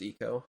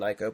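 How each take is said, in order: First: The name begins with an 'ee' sound. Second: The name begins with an 'eye' sound. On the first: The speaker calls it right. "then I learned it was Eco" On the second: The speaker calls it wrong. "I grew up saying Ico"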